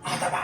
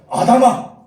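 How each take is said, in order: First: Softer call of a name; loving tone. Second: Booming, high-pitched shout of a name; loud call. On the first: God calling Adam with affection, loving soft tone. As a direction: call Adam tenderly, without force. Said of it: "사랑스러운 오토입니다". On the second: God calling Adam in a loud voice, commanding shout. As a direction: call Adam out with full force. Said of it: "큰 소리로". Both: Retold or imitated.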